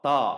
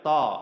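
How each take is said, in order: First: The t sound is thick and heavy. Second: The t sound is thick and heavy.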